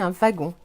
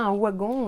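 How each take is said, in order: First: The word begins with a V sound. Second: The word begins with a W sound. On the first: The speaker calls it right. "Le W se prononce parfois aussi V" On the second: The speaker calls it wrong. "on ne dit pas"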